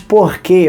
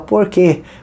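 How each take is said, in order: First: It is said with a Carioca R sound. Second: It is said with a rounded Campo Grande R. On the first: "eu sou carioca, mas eu não falava mais porquê" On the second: "eu já falava porquê"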